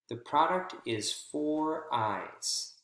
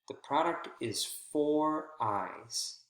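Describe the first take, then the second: First: The word "for" is stressed and clear. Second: The same.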